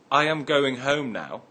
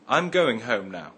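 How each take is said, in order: First: 'I am' is said as two full words. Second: 'I am' is shortened to one syllable. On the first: "Instead of saying" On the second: "I can say"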